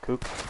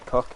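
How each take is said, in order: First: The vowel sounds like a Geordie accent. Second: The vowel sounds like a neutral accent. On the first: "he says cook" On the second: "he doesn't say cook"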